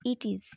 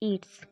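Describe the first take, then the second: First: Both words are said separately in full. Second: The words are joined into one short syllable.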